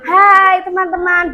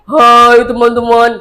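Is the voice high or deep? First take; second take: high; deep. First: It is said in a high, childlike voice. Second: It is said in a deeper, rounder voice.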